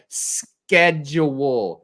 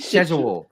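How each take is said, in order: First: It is said with an American pronunciation. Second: It is said with a British pronunciation. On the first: The speaker calls it right. "You say it sched schedule" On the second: The speaker calls it wrong. "all the British characters in that show kept saying schedule"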